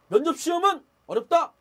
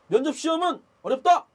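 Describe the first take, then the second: The two takes are said the same way.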